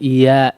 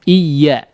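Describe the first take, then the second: First: The y blends away into a long vowel. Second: The y consonant is clearly and distinctly pronounced. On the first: The speaker calls it wrong. "Jangan iya, iya, iya aja ya. Seperti huruf mad dia" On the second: The speaker calls it right. "tapi iya-nya harus uh, terdengar betul-betul huruf ya ya"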